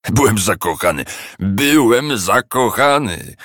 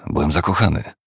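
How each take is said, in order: First: Slow mocking singsong echo; mocking mimicry. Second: Said in the usual way. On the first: A narrator's reading. Scrooge mimicking his nephew's reply, mocking. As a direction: parrot him with scorn. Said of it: "przedrzeźnił go Scrooge".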